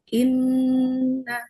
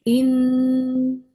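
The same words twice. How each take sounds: First: The nasal n is held briefly. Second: The nasal n is held much longer. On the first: "harusnya misalnya inna" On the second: "ini sampai enam harokat tuh"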